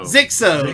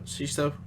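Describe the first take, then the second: First: The name begins with a 'z' sound. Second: The name begins with a 'sh' sound. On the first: The speaker calls it right. "that's it" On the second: The speaker calls it wrong. "I always butcher his name"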